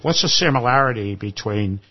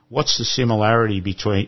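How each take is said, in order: First: It is said in an imitated Irish accent. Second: It is said in the speaker's normal accent.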